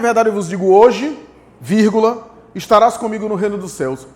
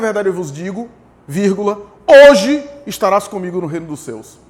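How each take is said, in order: First: The pause comes after the word hoje. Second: The pause comes before the word hoje.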